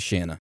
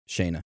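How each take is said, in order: First: The first vowel is a short 'a' sound. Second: The first vowel is a long 'ay' sound. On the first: The speaker calls it wrong. "sorry for mispronouncing your name. I didn't mean to say Shanna" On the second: The speaker calls it right. "I meant to say Shayna"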